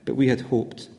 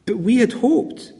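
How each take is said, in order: First: Hopeless sigh. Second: Higher, slow and drawn out, clinging to hope; wistful lament. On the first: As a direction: lower and softer, deflated. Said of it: "the sense of hopelessness that they feel". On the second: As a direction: linger on had hoped as if pleading. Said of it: "you can feel almost the tragic despair". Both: Acted.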